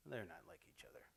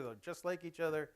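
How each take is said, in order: First: Hushed, unvoiced rueful punchline; whispered correction. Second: Said in the usual way. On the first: Shown as a demonstration. Parent correcting her own hope to the audience, whispered. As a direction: drop to a whisper to undo the hope.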